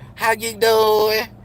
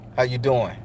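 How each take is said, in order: First: It is said in a light, thin voice. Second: It is said in a deep, low voice. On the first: The speaker calls it wrong. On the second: The speaker calls it right.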